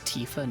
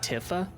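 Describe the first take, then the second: First: The name is said in its official way. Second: The name is said in its misread way. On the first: The speaker calls it right. "Tifa's name is Tifa" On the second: The speaker calls it wrong. "not Tifa"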